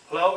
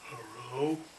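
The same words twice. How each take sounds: First: It is said in an ordinary, plain voice. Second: It is said in a deep, sexy voice. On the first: "instead of saying hello" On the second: "You said it so sexy and deeply"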